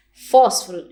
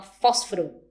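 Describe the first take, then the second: First: "Fósforo" said in full, fós-fo-ro, stressed and loud; standard fósforo. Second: "fósforo" said as fósro, the middle vowel dropped; reduced fósforo. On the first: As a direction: model the standard "Fósforo" with all three syllables. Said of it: "em vez de falar fósforo". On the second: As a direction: imitate the casual "fósforo" that sounds like fósro. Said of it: "a pessoa fala fósforo". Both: Shown as a demonstration.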